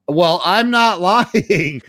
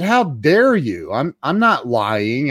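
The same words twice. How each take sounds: First: High, drawn-out mock protest; insistent protest. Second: Mildly pompous, slow retort; mock affront, drawn out slowly; pompous indignation. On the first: Accused customer insisting to psychiatrist, exaggerated indignant protest. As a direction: stretch the denial slowly, pitched up. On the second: Customer accused of lying by psychiatrist, pompously indignant. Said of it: "I got all pompous".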